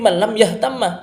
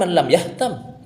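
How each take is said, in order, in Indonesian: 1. Bunyi m di akhir itu ganda, diikuti vokal. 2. Bunyi m di akhir itu tunggal, tanpa vokal setelahnya. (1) "tapi ... Mimnya tasydid dengan dibaca harkat fathah"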